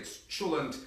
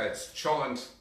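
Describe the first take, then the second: First: It is said the Hungarian way. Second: It is said the American way.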